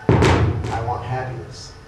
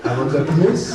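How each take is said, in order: First: It is said in the speaker's plain accent. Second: It is said with a French accent.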